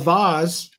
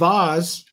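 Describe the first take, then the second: First: The word is said in a posh, fancy way. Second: The same.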